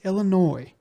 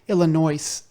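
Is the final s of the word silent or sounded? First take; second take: silent; sounded. First: The word ends without any s sound. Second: The word ends with an audible s sound. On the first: The speaker calls it right. "No, it's Illinois" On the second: The speaker calls it wrong. "pronounced the state that you live in with an S"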